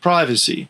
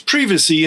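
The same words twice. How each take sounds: First: It is said with an Australian pronunciation. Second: It is said with a British pronunciation. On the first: "The Australian pronunciation is very similar" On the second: "It's privacy in the United Kingdom"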